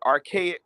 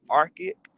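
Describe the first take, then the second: First: The word is said with a hard sound. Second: The word is said with a soft sound. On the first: It follows how others say it. "I have to say it hard like them" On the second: It is the speaker's own preferred way. "I would rather call it archaic"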